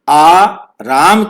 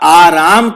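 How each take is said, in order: First: There is a short break after the first syllable. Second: It is said as one word without a break. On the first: It calls someone named Ram to come. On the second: It means rest or ease.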